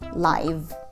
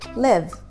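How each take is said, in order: First: The vowel is long, as in five. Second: The vowel is short, as in give. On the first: It is used as an adjective. "When it is an adjective, it is pronounced with a long I" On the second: It is used as a verb. "when this word functions as a verb, then it has a short I sound"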